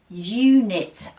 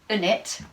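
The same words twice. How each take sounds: First: The first vowel sounds like the letter name 'you'. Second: The first vowel is a short 'oo' sound. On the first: The speaker calls it right. "that sounds better" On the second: The speaker calls it wrong. "that doesn't sound right either"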